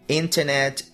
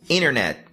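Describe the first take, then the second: First: The T after the N is clearly pronounced. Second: The T after the N is dropped. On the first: This is the British pronunciation. "esse T é bem perceptível" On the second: This is the American pronunciation. "o T, que simplesmente desaparece"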